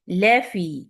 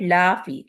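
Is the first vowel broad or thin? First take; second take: thin; broad. First: The first vowel is thin and light. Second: The first vowel is broad and open. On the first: The speaker calls it right. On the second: The speaker calls it wrong.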